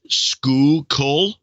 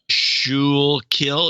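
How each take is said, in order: First: The word begins with a 'skoo' sound. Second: The word begins with a 'shool' sound. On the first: The speaker calls it right. "is skoo kol" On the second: The speaker calls it wrong. "pronunciation guide"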